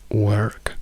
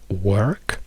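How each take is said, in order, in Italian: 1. Si pronuncia con accento americano. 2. Si pronuncia con accento americano.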